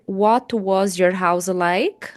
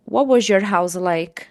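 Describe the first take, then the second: First: Each word is said separately and clearly. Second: The words are joined together into one sound. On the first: "Claro que você pode dizer" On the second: "você pode juntar aí o som de uma palavra com uma outra e formar um novo som"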